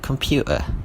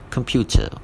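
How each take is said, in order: First: The t in the middle is dropped. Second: The t in the middle is clearly pronounced.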